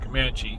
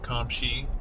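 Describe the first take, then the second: First: The name sounds like 'Comanche'. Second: The name sounds like 'Kamshi'. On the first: The speaker calls it wrong. "It's not Comanche" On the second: The speaker calls it right. "it's Kamshi"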